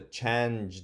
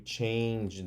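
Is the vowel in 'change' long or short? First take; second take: short; long. First: The vowel is a short A sound. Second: The vowel is a long A sound. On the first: The speaker calls it wrong. "that doesn't sound right" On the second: The speaker calls it right. "Let me try long eight"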